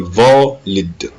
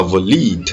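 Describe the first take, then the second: First: Valid as VA-lid, first syllable strong; weight on VA of valid, short "lid"; stress on VA. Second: Valide as va-LEED, second syllable long; wrong stress on LID. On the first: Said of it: "on dit valid". (valid bien accentué sur VA) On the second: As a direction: push the end of valide, first syllable light. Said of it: "On dit pas valide". (valide mal accentué, sur la finale) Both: Shown as a demonstration.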